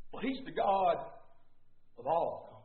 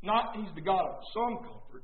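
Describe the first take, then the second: First: "all" dropped low and soft after a pause; stress on all. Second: "some" set up as the wrong word, leaned on; measured preaching with weight on "some"; stress on some. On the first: Contrasts all with some comfort. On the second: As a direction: lean on "some" to reject it. Contrasts some with all comfort. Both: Shown as a demonstration.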